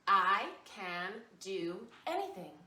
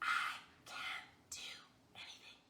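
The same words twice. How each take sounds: First: It is said in a normal voice. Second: It is said in a whisper.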